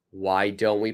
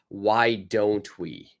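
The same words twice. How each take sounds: First: Said in the usual way. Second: Slow model phrase. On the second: Shown as a demonstration. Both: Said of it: "last suggestion is".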